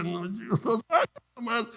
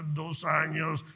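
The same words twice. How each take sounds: First: High, stretched-out protest; insistent answer. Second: Slow, stretched-out reply; drawn-out answer. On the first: Answering disbelieving colleagues about his years, high insistent reply. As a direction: insist on it in a raised voice. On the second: Answering colleagues who asked his years in business, drawn-out reply. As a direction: stretch both words out at half speed. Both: Retold or imitated.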